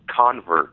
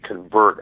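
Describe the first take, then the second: First: It is pronounced the way the noun sounds. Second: It is pronounced the way the verb sounds. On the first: It names a person who has converted. The speaker calls it wrong. "someone can pick up the title and pronounce it convert, like a noun" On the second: It names the act of converting. The speaker calls it right. "but it's actually convert as in a verb"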